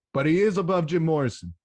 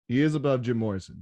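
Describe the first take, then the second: First: IS hit loud and high in "he is above"; emphatic claim. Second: Said in the usual way. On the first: Real, not acted. Fan insisting his DJ outranks [name], IS hit loud and high. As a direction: lean hard on "is", louder and higher. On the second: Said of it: "But he is above [name]".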